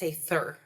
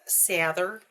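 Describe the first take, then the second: First: The th sound is voiceless. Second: The th sound is voiced. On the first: This is how the Montana side says it. "there's no vocal behind the th" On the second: This is how the Texas side says it. "In Texas, it's"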